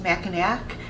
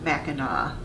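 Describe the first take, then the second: First: The word is said just as it is spelled. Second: The word is not said as it is spelled. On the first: This is how outsiders say it. The speaker calls it wrong. "it looks like it should be pronounced Mackinac, and that's how a lot of people who don't live in Michigan pronounce it" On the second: This is how locals say it. The speaker calls it right. "but it is pronounced Mackinac"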